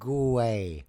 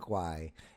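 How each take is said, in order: First: It is said as two syllables, goo-ey. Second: It is said as one quick syllable. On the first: The speaker calls it right. "G O O and then a hyphen with E Y" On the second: The speaker calls it wrong. "It's not Gwai"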